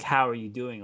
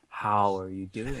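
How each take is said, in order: First: It is asked as a casual, passing greeting. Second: It is asked as a deep, heartfelt question.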